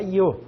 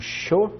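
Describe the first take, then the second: First: It is said with a Mexican accent. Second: It is said with an Argentine accent.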